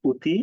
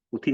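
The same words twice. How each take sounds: First: "অতি" with the first vowel closed towards o/u; first vowel of "অতি" raised from aw to o; corrected pronunciation. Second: "অতি" with an open অ at the start; first vowel of "অতি" left as open aw; spelling pronunciation. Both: Shown as a demonstration. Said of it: "অতি না হয়ে অতি".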